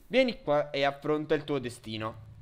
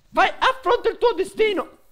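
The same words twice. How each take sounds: First: Said in the usual way. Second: High, loud dramatic challenge; mock epic challenge. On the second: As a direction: declaim it like a movie villain.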